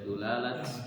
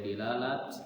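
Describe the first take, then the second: First: The first vowel is u. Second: The first vowel is i. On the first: "boleh dulalat" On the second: "boleh dilalat"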